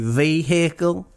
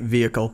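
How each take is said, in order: First: It is said in a mock Southern accent. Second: It is said plainly, dropping the h sound.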